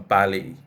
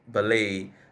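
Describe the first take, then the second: First: The stress is on the first syllable. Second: The stress is on the second syllable. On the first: The speaker calls it wrong. "not a ballet" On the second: The speaker calls it right. "a word like ballet"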